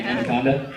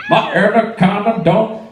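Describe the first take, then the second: First: Said in the usual way. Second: Higher, put-on hook delivery; mimicked song hook. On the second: Comic mocking a music video, exaggerated hook imitation. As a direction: belt out a mock pop hook.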